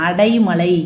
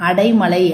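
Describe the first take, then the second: No difference in how they are said.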